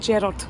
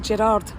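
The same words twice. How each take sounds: First: The name is said the Scottish way. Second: The name is said the non-Scottish way. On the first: This is how people in Scotland say it. The speaker calls it right. "for Scottish people, we say Gerard" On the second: This is how people outside Scotland say it. The speaker calls it wrong. "we don't say Gerard"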